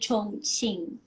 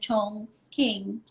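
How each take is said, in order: First: It is said with a Mandarin Chinese pronunciation. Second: It is said with an American English pronunciation. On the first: The speaker calls it right. "it's actually it's pronounced as Chongqing" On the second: The speaker calls it wrong. "the Americans pronounce it as Chongqing"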